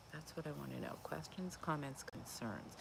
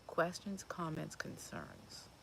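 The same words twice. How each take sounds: First: Quieter. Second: Said in the usual way. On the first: Real, not acted. Host keeping voice down for neighbours, quiet. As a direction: hush it so the neighbours won't hear. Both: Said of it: "I'm starting to speak a little quieter".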